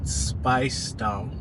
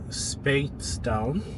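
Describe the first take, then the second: First: The first syllable rhymes with spice. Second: The first syllable rhymes with space. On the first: "as if they're saying spice as in food condiments" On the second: "as if the person is going to space"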